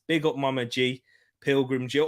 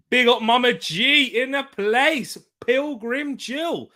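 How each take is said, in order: First: Said in the usual way. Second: Hype shout-out. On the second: Acted. Shout-out to a viewer.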